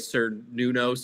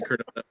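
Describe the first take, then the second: First: The word begins with an S sound. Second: The word begins with a hard K sound. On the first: The speaker calls it wrong. "it was with the S" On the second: The speaker calls it right. "not with the hard C"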